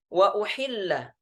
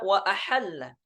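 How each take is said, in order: First: The verb begins with u and i vowels. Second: The verb begins with a and a vowels. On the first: This is the base reading. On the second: This is the reading in the Shu'bah transmission.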